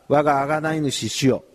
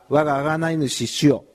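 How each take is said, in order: The two takes are said the same way.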